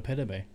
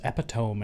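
First: The ending sounds like 'toe-mee', two syllables. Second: The ending sounds like 'tome', one syllable. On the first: The speaker calls it right. "and not epitome" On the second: The speaker calls it wrong. "I thought the word was epitome"

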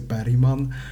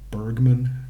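First: The name is pronounced the Swedish way. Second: The name is pronounced the English way. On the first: "if I were to say, I would say Bergman" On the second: "just like in the English way"

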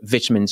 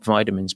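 First: The word is said the British way. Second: The word is said the American way. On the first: The speaker calls it right. "but vitamins" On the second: The speaker calls it wrong. "not vitamins"

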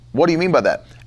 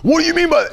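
First: It is said softly, with a calm, curious tone. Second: It is said loudly, with an angry, confrontational tone. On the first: The speaker sincerely wants to understand the remark. The speaker calls it right. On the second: The speaker feels attacked and is confronting the listener. The speaker calls it wrong.

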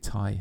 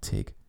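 First: The name sounds like 'tie' with no g. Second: The name ends with a hard g sound. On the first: The speaker calls it right. "That's got to be Ty, hasn't it?" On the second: The speaker calls it wrong. "It's not Tig"

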